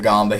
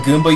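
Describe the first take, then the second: First: The first vowel is an aw sound. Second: The first vowel is an ooh sound. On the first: The speaker calls it wrong. "I do that to annoy people" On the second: The speaker calls it right. "you pronounce it with, like, an ooh sound"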